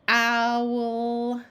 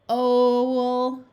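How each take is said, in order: First: The vowel sounds like 'ow'. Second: The vowel sounds like 'oh'. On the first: The speaker calls it right. "I'm going to try it the other way" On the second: The speaker calls it wrong. "We will always start with O first"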